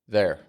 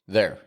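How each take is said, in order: No difference in how they are said.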